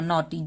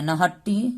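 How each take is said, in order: First: The gh is silent, said like 'nawtee'. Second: The gh is sounded, said like 'nahattee'. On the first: The speaker calls it right. "जी एच silent है तो इसको हमको नॉटी बोलना है" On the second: The speaker calls it wrong. "नहीं बोलना है"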